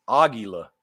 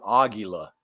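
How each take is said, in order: Both takes have the same delivery.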